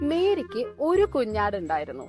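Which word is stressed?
ഒരു. The word ഒരു carries the emphasis. Mary had only one lamb. "Yes"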